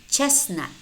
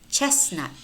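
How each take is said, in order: The two takes are said the same way.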